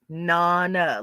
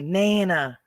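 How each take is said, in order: First: The vowels sound like those in 'mama'. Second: The vowels do not sound like 'mama'. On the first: The speaker calls it right. "It's pronounced Nana, like mama" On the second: The speaker calls it wrong. "they say Nana. It's not Nana"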